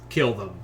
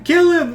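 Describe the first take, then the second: First: It is said in a firm, stoic tone. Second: It is said in an unsteady, frantic way.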